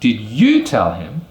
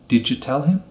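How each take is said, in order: First: The word 'you' is full and stressed. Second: The word 'you' is reduced and unstressed. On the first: It asks whether the listener was the one who told him. "Then we wouldn't use a weak form" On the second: It simply asks whether the listener told him. "if we use the weak form of you, which would be yo"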